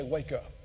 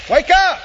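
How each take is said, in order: First: Said in the usual way. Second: Loud higher rousing shout; shouted wake-up call. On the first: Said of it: "clap your hands together and say". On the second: Shown as a demonstration. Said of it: "Everybody just do this with me".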